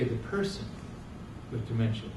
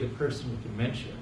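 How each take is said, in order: First: The word person carries the main stress. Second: The word dementia carries the main stress. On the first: The human being comes before the illness. The speaker calls it right. "We should say" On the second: The illness defines who the person is. The speaker calls it wrong. "We should never say"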